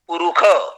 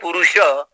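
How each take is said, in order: First: The last consonant is a kh sound. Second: The last consonant is an sh sound. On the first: This is the Yajurvedic way of saying it. "Yajurvedic utter at Purukha" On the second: This is the Rigvedic way of saying it. "In Rigveda, you say Purusha"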